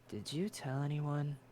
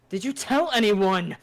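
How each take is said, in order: First: It is said quietly. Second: It is said loudly.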